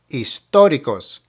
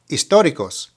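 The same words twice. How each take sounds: First: The word is said at a slower pace. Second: The word is said at a faster pace.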